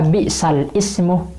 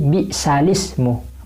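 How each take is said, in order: First: A glottal stop separates the two words. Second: The two words run together without a stop.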